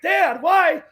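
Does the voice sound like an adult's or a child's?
child. It is said in a higher, childlike voice.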